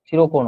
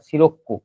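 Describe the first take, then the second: First: The middle k sound is short and single. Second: The middle k sound is doubled and held. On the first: The speaker calls it wrong. "সিরোকো নয়" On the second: The speaker calls it right. "এটা সিরোক্কো"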